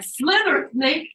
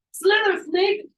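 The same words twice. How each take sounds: First: Much higher, loud cheer; root for the snake, full voice; urging shout. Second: Even higher, loud cheer; renewed urging shout. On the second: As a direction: scream it louder for the snake. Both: Retold or imitated. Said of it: "like, like".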